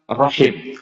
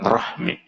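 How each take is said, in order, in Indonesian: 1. Kata ini berakhir dengan bunyi h-i-m. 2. Kata ini berakhir dengan bunyi h-m-i. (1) "kalimat yang tepat rahim" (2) "bukan rahmi"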